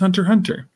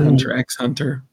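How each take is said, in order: First: The letter X is left out between the words. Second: The letter X is spoken between the words. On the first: The speaker calls it right. "You don't say the X" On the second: The speaker calls it wrong. "It's not Hunter X Hunter"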